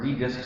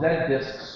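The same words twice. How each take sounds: First: The letter Z is said the American way. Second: The letter Z is said the non-American way.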